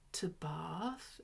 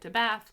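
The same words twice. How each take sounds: First: Bath is said with a British accent. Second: Bath is said with an American accent. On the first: The speaker calls it right. "corrected my pronunciation" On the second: The speaker calls it wrong. "my pronunciation of my American accent"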